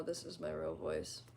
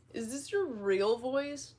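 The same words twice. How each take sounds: First: Low, softer, emotionless register; real deep voice. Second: High, drawn-out put-on voice; exaggerated higher voice, stretched out. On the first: Shown as a demonstration. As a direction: drop into a very deep natural voice. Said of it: "my real voice is actually, like, really deep". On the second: Real, not acted. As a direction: ask it slowly, pitched up. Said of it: "No, this is my real voice".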